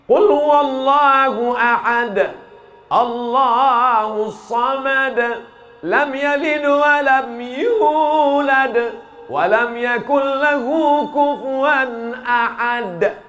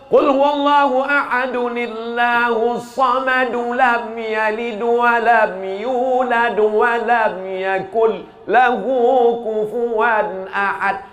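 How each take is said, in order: First: It pauses at the end of each verse. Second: It runs the verses together without pausing.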